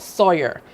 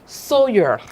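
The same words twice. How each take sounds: First: The first syllable does not sound like 'so'. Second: The first syllable sounds like 'so'. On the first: The speaker calls it wrong. "So not Sawyer" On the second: The speaker calls it right. "as in do, re, mi, fa, so"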